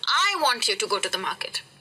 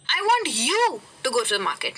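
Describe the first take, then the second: First: The stress is on "I". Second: The stress is on "you".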